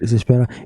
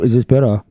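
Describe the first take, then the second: First: It is said very quietly. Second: It is said at normal loud volume.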